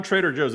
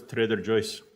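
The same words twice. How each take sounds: First: Said in the usual way. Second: Joe's said as "Joyce"; funny foreign mispronunciation. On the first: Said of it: "funniest pronunciations of certain things". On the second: Shown as a demonstration. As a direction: imitate a foreign parent saying Joe's as JOYCE. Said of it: "It's not Trader Joe's".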